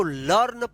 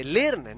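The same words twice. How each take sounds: First: लर्न with an open 'aw/uh' vowel, 'larn'; correct pronunciation. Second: लर्न mispronounced with an 'e' vowel, 'lern'; wrong pronunciation. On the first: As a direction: say लर्न as 'larn', not 'lern'. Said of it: "ई ए का अ उच्चारण हुआ". (लर्न में 'अ' का उच्चारण) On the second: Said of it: "नहीं, इसको लर्न पढ़ेंगे". (लर्न को गलती से 'लेर्न' बोलना) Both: Shown as a demonstration.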